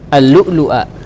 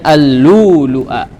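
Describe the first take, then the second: First: A glottal stop is heard after the first 'lu'. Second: The first 'lu' has a long vowel instead. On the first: "Ini ada dua hamzah ini" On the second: "diganti menjadi huruf mad"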